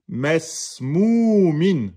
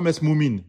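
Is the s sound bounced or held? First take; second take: held; bounced. First: The s sound is held smoothly and long. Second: The s sound ends with a bouncing release. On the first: The speaker calls it right. "vous le prolongez un, un temps et demi" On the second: The speaker calls it wrong. "C'est pas mesmoumin"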